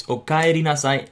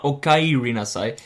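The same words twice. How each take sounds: First: "okaeri nasai" with a clean Japanese e; correct okaeri. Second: "okaeri nasai" slow, with an English i glide; wrong okaeri. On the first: Teacher to learners, the correct "okaeri nasai". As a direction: say "okaeri nasai" the right way, e not i. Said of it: "should be pronounced as E". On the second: Teacher to learners, the wrong "okaeri nasai". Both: Shown as a demonstration.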